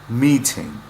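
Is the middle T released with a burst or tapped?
burst. The T is released with a burst of air.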